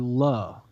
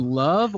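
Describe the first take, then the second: First: The final v sound is dropped, like luh. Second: The final v sound is clearly pronounced.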